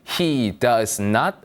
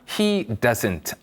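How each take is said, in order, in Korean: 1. does와 not은 두 개의 완전한 단어로 말합니다. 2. does와 not은 하나의 짧은 단어로 합쳐집니다. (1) "He does not 으로 발음하시던가" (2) "doesn't는 줄임형일 뿐이고요"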